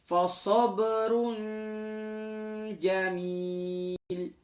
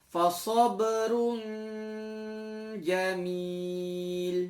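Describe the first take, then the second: The two takes are said the same way.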